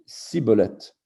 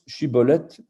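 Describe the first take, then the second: First: The word begins with an 's' sound. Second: The word begins with a 'sh' sound. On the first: This is how a rival group said the word. "et les Éphraïmites sibolette" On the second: This is how one group said the word. "que les Giladides prononcent chibolette"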